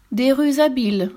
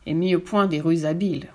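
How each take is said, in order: First: High, indignant echo; scoffing storybook exclamation; incredulous cry. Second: Said in the usual way. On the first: A narrator's reading. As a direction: cry it back with pitch lifted. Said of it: "s'écria le pas si gros".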